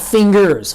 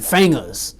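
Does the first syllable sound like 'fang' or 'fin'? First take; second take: fin; fang. First: The word is said in the standard way. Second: The word is said like 'fangaz'. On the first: "not fingers" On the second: "F A N G A Z"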